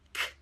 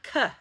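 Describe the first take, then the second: First: The k sound is clipped with no vowel. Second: The k sound ends with an added vowel. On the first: The speaker calls it right. "This is k" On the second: The speaker calls it wrong. "This is not k"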